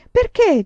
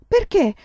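First: Put-on even higher and louder child's repeat; insistent small child. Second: Put-on much higher, louder little girl's question; small child asking. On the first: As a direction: push the question again, more eager. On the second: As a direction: pipe up like a curious toddler. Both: A narrator's reading. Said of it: "disse Grace".

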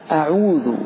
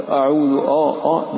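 First: أعوذ starting on a thin, clear a; light hamza. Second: أعوذ starting on a dark, rounded o-like vowel; wrongly heavy hamza. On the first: Teacher models for students, أعوذ with light hamza. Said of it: "أعوذ كذلك". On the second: Teacher shows what to avoid, أعوذ with heavy hamza. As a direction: thicken the first vowel of أعوذ to "oh". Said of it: "ولا تفخم تقول". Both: Shown as a demonstration.

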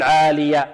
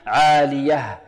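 First: عالية ending on an open vowel, no h; faulty عالية without its final h; dropped final haa. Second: عالية ending in a clearly breathed h; recited عالية, final h made plain; clear final haa. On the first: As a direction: let عالية stop at "aliya", losing the haa. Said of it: "لا نقول عالية". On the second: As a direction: finish عالية on an audible haa. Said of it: "لا بد من إيضاح الهاء". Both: Shown as a demonstration.

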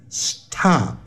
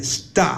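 First: "stop" with a puffed T after the S, s-tʰop; slow "stop" with a breathy burst on the T; aspirated T, mistaken. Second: "stop" with the T softened to D, sdop; unaspirated T. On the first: Teacher warning learners off it, "stop" with aspirated T. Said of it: "不要念成stop". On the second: Teacher modelling the right way, "stop" said as sdop. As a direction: say "stop" with no puff of air on the T. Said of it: "要念stop，stop". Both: Shown as a demonstration.

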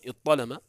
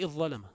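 First: اضطلم as iṭṭalama, doubled ط and no ظ; ظ turned to ط. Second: اضظلم as iẓẓalama, doubled ظ and no ط; ط turned to ظ. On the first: Teacher shows the first merging, اضطلم with doubled ط. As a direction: say اضطلم with one long heavy ط. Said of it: "تبدل من الضاء طاء فتقول". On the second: Teacher shows the other merging, اضظلم with doubled ظ. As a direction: say اضظلم with one long heavy ظ. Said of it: "تبدل من الطاء ضاء فتقول". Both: Shown as a demonstration.

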